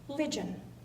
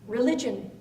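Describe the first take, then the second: First: The first syllable is dropped, leaving two. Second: The word is said with three syllables. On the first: "became ligion" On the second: "three syllables"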